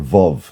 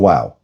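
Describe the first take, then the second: First: The word begins with a V sound. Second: The word begins with a W sound. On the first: "what we call the letter Vav" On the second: "In his accent, it's a wow"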